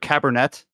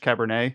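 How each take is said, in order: First: The name is pronounced in an English way. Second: The name is pronounced in a French way. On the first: "It's either Cabernet" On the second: "or if it's French"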